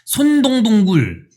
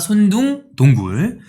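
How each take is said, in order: First: The second syllable is said as dong. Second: The second syllable is said as doong. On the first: The speaker calls it wrong. "발음 어렵다고 하시는 분들 많네요" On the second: The speaker calls it right. "근데 손둥동굴입니다"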